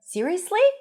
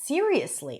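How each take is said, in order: First: It rises in pitch with a shocked, disbelieving tone. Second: It is said sincerely as a plain confirming statement. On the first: The speaker can't believe what they heard. "the pitch goes up, but the intonation, the tone of voice is almost like, it's not even surprise, it's shocked" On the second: The speaker sincerely confirms they mean it. "he's being genuine"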